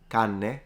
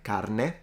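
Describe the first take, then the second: First: The R merges into a lengthened N sound. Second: The R is pronounced before the N. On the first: "it can become canne" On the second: "a word like carne"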